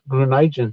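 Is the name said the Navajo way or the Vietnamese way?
Navajo. The name is said the Navajo way. "in Navajo is Grunigen"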